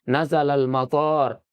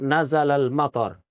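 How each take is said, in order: First: The last vowel of matar is long. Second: The last vowel of matar is short. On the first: He landed at the airport. The speaker calls it wrong. "turun Kuala Namu" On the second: The rain came down. The speaker calls it right. "turun hujan"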